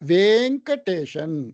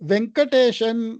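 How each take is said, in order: First: The first vowel is a long e. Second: The first vowel is a short e. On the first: This is the Sanskrit way of saying it. "சமஸ்கிருதத்துல வேங்கடேஷன் அப்படித்தான் சொல்ல முடியும்" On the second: This is the Tamil way of saying it. "தமிழ்ல நம்ம சொல்றோம்னா வே அப்படிங்கிறது ஏ குறில இருக்கு"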